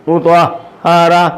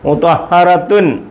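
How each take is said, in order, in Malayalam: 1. വാക്ക് തുറന്ന 'a' സ്വരാക്ഷരത്തിലാണ് അവസാനിക്കുന്നത്. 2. വാക്ക് പൂർണ്ണമായ 'tun' അക്ഷരത്തിലാണ് അവസാനിക്കുന്നത്. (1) "പിന്നെ എങ്ങനെ പറയും?" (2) "അങ്ങനെ പറയത്തില്ല"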